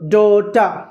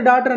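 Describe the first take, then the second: First: The word ends in a vowel without r. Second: The word ends with a pronounced r sound. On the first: The speaker calls it right. "ఆగా పలకాలి" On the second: The speaker calls it wrong. "సాధారణంగా డాటర్ డాటర్ అని అంటారు"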